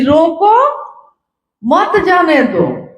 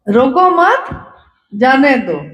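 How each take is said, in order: First: The pause comes right after रोको. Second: The pause comes after रोको मत.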